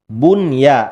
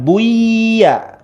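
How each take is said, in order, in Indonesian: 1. Bunyi n jelas dilafalkan. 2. Bunyi n menyatu ke dalam y.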